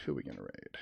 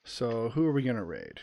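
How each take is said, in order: First: "Who are we gonna raid?" dropped far lower and softer; low muttered repeat. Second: Said in the usual way. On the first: Pretend.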